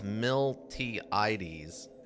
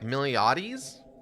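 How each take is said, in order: First: The T in the middle is pronounced. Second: The T in the middle is silent. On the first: "I always pronounce this Miltiades" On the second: "Like the T is silent"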